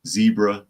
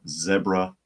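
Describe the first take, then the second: First: "zebra" said ZEE-bruh; "zebra" the American way, ZEE-bruh; long-e zebra. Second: "zebra" said ZEB-ruh; "zebra" the British way, ZEB-ruh; short-e zebra. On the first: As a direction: say "zebra" with a long ee first vowel. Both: Shown as a demonstration. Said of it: "depending upon your pronunciation".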